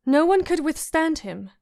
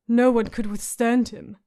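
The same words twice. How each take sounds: First: Put-on a touch higher, girlish and proud; lightly voiced girl forcing out the line; proud Sansa. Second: A hint of a grim rasping warrior; rasped. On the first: Sansa politely praising the Hound's brother, a little higher. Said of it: "She managed at last, proud of herself". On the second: Hound grimly repeating the girl's words, understated rasp. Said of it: "the hound rasped".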